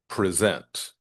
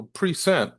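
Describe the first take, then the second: First: "present" stressed on the second syllable, pre-ZENT; intended word stress. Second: "present" stressed on the first syllable, PRE-sent; wrong word stress. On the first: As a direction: say "present" as the verb, weight on the end. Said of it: "if you're looking to". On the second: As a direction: say "present" as the noun, front syllable higher. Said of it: "is not going to have the emphasis". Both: Shown as a demonstration.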